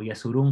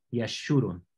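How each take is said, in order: First: Yeshurun with a plain s instead of sh; pronunciación española. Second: Yeshurun with a clear hushed sh; pronunciación hebrea. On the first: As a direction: say Yeshurun the Spanish way, as Yesurún. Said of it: "como dice en español". (Yeshurun a la española, con s) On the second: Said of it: "en hebreo es sh". (Yeshurun a la hebrea, con sh marcada) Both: Shown as a demonstration.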